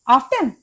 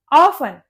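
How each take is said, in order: First: ऑफ्टन with the T sounded, OFF-tun; wrong pronunciation. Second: ऑफन as OFF-un, no T; silent T. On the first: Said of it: "ये ऑफ्टन नहीं होता". (ऑफ्टन में 'ट' बोलकर) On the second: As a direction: drop the T in ऑफन. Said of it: "इसमें टी silent होता है". (ऑफन में 'ट' silent) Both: Shown as a demonstration.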